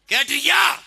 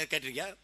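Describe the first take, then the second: First: Loud, high, rising shout; shouted challenge. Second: Said in the usual way. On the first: Real, not acted. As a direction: fire the question at the whole crowd. Shouted repeat of his question. (உரத்த அதட்டல் கேள்வி)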